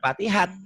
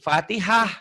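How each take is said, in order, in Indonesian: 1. Kata ini berakhir dengan bunyi t. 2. Kata ini berakhir dengan bunyi h yang lembut. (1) "jangan Fatihat" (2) "kalau baca Quran dihentikan jadi Fatihah"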